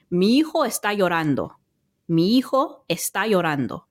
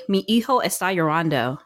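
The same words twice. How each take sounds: First: Spanish in a jumbled-up but natural accent; Spanish with fluent native-like vowels and tapped r; own Spanish accent. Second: Imitating Spanish with a heavy English accent. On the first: Shown as a demonstration. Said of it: "the way that I would say it in my jumbled up accent". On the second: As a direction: mimic a teacher's accentless American Spanish. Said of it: "This instructor would say ... dead no accent".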